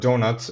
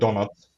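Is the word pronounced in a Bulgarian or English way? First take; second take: English; Bulgarian. First: The word is said with English pronunciation. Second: The word is said with Bulgarian pronunciation.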